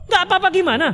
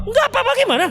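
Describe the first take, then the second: First: Pressing husband. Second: Much higher, strained demand; exasperated husband. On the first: Husband presses his wife for an answer, insistent and higher. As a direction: push her for an answer. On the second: Husband demands an answer from his wife, exasperated and much higher. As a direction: lose patience and push hard. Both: Acted.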